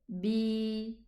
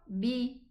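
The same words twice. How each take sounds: First: The vowel is long. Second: The vowel is short. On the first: "with a ya sukoon coming after it" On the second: "Ba kasra"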